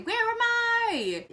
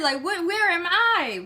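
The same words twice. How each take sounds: First: Higher, slow, lost question; drawn-out confusion. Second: High, stammering confusion; confused panic. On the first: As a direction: stretch it out dazed. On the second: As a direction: stumble over where am I. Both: Retold or imitated. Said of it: "And I'm just like".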